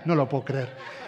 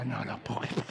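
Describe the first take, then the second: First: Laughing. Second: Low and much softer, a muttered aside; dad's disbelief. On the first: Real, not acted. Preacher laughs at his own story. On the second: Retold or imitated. Father overhearing his son's phone code, low and softer. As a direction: mutter it under your breath. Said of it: "Mi papá me decía".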